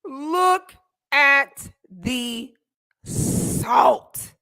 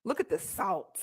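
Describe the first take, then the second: First: Very slow, loud, word by word; drawn-out mockery. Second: Said in the usual way. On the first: Real, not acted. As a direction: savor each word, stretching SALT out. Repeats mocking remark, drawn out.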